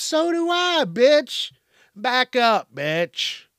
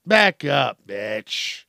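First: High-pitched, exasperated comeback; indignant retort. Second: Demonstrated firm warning. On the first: Acted. Answering someone's health excuse, high indignant retort. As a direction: fire back at the excuse, voice jumping up high. Acted retort to mask refuser. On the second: Shown as a demonstration. Showing how to tell someone off, firm loud warning. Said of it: "That's how you do that".

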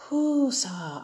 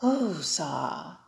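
First: Calming breath. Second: Slow breathy calming exhale, Whoo-sa; Whoo-sa exhaled low and drawn out; calming breath. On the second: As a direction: breathe out Whoo-sa slowly and soft. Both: Shown as a demonstration. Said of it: "take a deep breath in and take a deep breath out".

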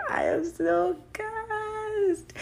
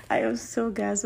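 First: Much higher, slow, drawn-out squeal; thrilled squeal. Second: Said in the usual way. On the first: Real, not acted. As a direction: squeal it out with delight. Thrilled about anniversary.

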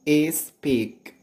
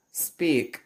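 First: "is speak" as the mistaken espeak, vowel before the S; added vowel before S. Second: "speak" starting straight on the S; no vowel before S. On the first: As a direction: put an extra I sound onto the front: "is speak". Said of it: "put a I sound before the S". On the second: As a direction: begin "speak" with a clean hiss, no I in front. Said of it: "there is no I sound before S". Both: Shown as a demonstration.

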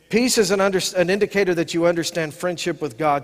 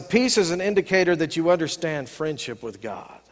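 First: Said in the usual way. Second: Hushed breathy whisper with no voice. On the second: Shown as a demonstration. Pastor to congregation sharing his key truth, whispered. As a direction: lean in and whisper it like a secret.

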